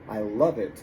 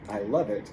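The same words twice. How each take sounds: First: The words flow together, v joined to it. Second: The words flow together, v joined to it.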